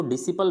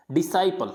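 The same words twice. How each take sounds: First: डिसिपल with short "si" in the middle; wrong pronunciation. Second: डिसाइपल with "sai" in the middle; correct pronunciation. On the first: Teacher shows the common misreading, डिसिपल with a middle "si". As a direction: say डिसिपल as di-si-pal. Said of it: "डिसिपल गलत है". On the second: Teacher models the right reading, डिसाइपल with a long "sai". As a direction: say डिसाइपल as di-sai-pal, like "sigh". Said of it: "इसको पढ़ना है डिसाइपल". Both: Shown as a demonstration.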